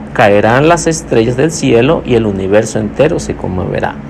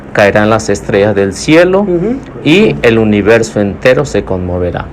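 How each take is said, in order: Both takes have the same delivery.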